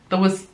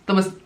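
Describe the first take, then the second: The two takes are said the same way.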